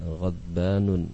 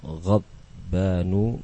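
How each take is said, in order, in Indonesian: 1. Kata itu berakhir dengan bunyi n tambahan di akhir. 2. Kata itu berakhir dengan vokal, tanpa n di akhir. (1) "Salah kalau dibaca dengan" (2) "Semuanya tidak menerima tanwin"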